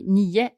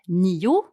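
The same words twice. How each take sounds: First: The word ends in an e-like vowel. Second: The word ends in a clear o vowel. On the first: This is how it comes out in quick everyday speech. "when I speak quickly, I say" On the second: This is the careful, correct form. "when I speak correctly, I say"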